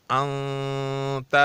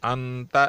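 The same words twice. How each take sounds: First: انت slowly, nun hidden in the nose and stretched; nasal ikhfa. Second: انت with the nun said plainly, not hidden; clear nun. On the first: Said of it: "اس طرح نہیں پڑھا جائے گا، بلکہ". (انت میں اخفا، لمبی ناک کی آواز) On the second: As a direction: say انت with izhar, nun fully sounded. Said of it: "یہ اظہار ہو گیا". (انت میں نون کا اظہار) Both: Shown as a demonstration.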